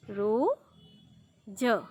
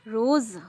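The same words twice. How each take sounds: First: रोज drawn out with a hard j, roj; without nukta. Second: रोज़ said loud as roz with a buzzing z; with nukta. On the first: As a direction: slowly stretch रोज ending on j. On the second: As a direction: land firmly on the z of रोज़. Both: Shown as a demonstration. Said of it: "नुक्ता लगने के बाद रोज़।".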